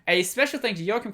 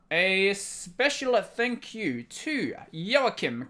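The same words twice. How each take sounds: First: It is spoken quickly and hurriedly. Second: It is spoken slowly and clearly. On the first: The speaker calls it wrong. "That's how I normally say it, but maybe I should do it slower" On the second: The speaker calls it right. "Maybe if I should say it this slowly"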